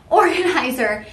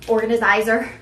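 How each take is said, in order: First: Said in the usual way. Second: Organizer with an extra syllable, "organa-zizer"; mispronounced organizer. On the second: Real, not acted. Host tripping on organizer in a bag demo, extra syllable "zi". Stumbles on word, then corrects it.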